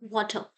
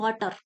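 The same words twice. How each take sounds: First: It is said in an American way with r. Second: It is said in an Indian English way. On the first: The speaker calls it right. "American accent में जो आर होता है" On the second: The speaker calls it wrong. "हम बोलते हैं वाटर, वाटर नहीं होता"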